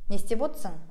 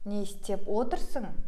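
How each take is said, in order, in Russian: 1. Вспомогательный глагол сокращается, один слог пропадает. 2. Вспомогательный глагол произносится полностью, со всеми слогами.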